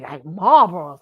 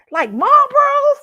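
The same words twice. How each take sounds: First: Said in the usual way. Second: High, loud, drawn-out disbelief; retold appalled double-check; incredulous question. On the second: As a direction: shriek the question in mock shock. Retold disbelief at cigarette brand.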